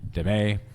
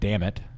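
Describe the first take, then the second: First: The name does not sound like 'damn it'. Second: The name sounds like the English 'damn it'. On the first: The speaker calls it right. "but I believe it's pronounced Damet" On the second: The speaker calls it wrong. "it looks like damn it"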